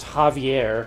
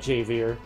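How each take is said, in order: First: The first sound is like an English H. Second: The first sound is like an English J. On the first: The speaker calls it right. "the J was pronounced like an H" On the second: The speaker calls it wrong. "not Javier"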